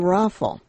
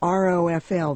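First: It is spoken as one single word. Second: It is spelled out letter by letter. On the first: "people say raffle" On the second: "the initials"

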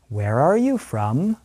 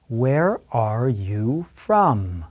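First: The question is spoken at moderate speed. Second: The question is spoken very slowly. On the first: "listen and repeat at a slightly faster pace" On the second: "listen and repeat very slowly after me"

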